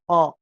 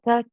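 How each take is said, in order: First: The k sound is made far back in the throat. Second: The k sound is light and forward. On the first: The speaker calls it wrong. "go too back and say qa" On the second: The speaker calls it right. "nice and light"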